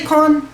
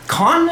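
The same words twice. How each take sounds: First: "Khan" with a plain English k and a flat "an", no throat sound; mock the anglicised "Khan", clean k with no rasp. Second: "Khan" with a guttural kh from the back of the throat, high and emphatic; correct throaty Khan. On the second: Shown as a demonstration.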